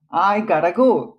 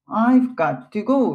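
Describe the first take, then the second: First: Got to is run together as gotta. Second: Got to is said as two separate words. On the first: The speaker calls it right. "I gotta go っていうわけですよ" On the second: The speaker calls it wrong. "これもI've got to go って言わないんですよね"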